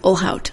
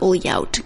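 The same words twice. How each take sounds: First: The 'lh' is said as 'l' then 'h'. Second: The 'lh' is said like a 'ly' sound. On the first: The speaker calls it right. "It's Ohlhaut" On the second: The speaker calls it wrong. "because my brain is trying to learn Portuguese"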